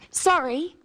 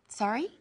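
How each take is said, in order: First: It is said as an apology. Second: It is said asking for a repeat.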